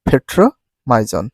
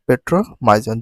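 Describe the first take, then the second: First: The word is said with English-style sounds. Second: The word is said with Bengali-style sounds.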